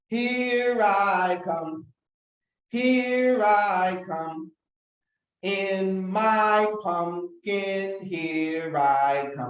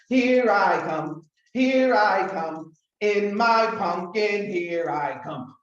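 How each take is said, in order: First: It is said a little faster. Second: It is said very fast.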